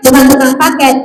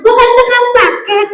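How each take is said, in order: First: Said in the usual way. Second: High singsong puppet voice; high-pitched comic echo. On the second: Acted. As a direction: parrot it back high like a puppet. Puppet echoes the correction.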